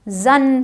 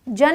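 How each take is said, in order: First: जन with a buzzing z sound; correct pronunciation. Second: जन with a hard j sound; wrong pronunciation. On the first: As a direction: say जन as "zun", slowly. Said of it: "जन पढ़ते हैं". (जन को ज़ की आवाज़ से) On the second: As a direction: say जन as "jun", with j not z. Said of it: "जन नहीं पढ़ते". (जन को गलत, ज की आवाज़ से) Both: Shown as a demonstration.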